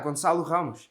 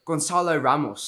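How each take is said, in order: First: The name is said with Portuguese sounds. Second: The name is said with English sounds.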